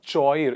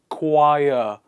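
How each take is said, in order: First: The H is sounded in the ch. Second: The ch is a plain K sound. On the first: The speaker calls it wrong. "Not choir" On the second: The speaker calls it right. "It is choir"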